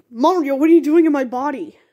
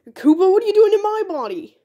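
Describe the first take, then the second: First: Startled, indignant question, pitch a little raised. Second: High-pitched startled outcry. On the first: Body-swapped character confronts Mario, startled. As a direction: demand an explanation in alarm. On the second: Body-swapped Mario confronts Koopa, high and startled. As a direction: echo the alarm, pitched way up. Swapped characters shout in surprise. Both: Acted.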